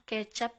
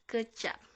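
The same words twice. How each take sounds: First: The first vowel is a clear e sound. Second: The first vowel is a weak schwa sound. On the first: It names soy sauce. The speaker calls it wrong. "bukan kecap ya" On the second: It means to taste. The speaker calls it right. "Diakrik E dilafalkan E"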